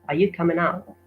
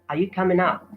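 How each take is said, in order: Both takes have the same delivery.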